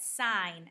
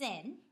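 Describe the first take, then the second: First: The word is said in full, rhyming with 'line'. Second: The word is clipped short, rhyming with 'pin'. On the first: The speaker calls it right. "you pronounce that sine" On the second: The speaker calls it wrong. "not sin"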